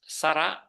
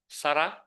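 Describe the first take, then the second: The two takes are said the same way.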